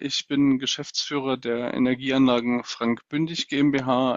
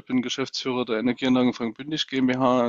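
First: It is spoken slowly and clearly. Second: It is spoken fast and less clearly. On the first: "Vielen Dank für diese Sprachkostprobe" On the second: "Deutlich schneller und sicher auch undeutlicher"

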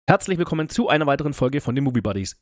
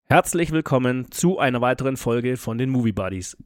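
First: It is said at a faster pace. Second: It is said at a slow pace.

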